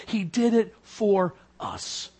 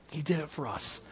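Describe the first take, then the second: First: Slow. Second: Much softer, almost breathed; quiet, low echo of the line; hushed repeat. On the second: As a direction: let it fall to a hush. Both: Real, not acted.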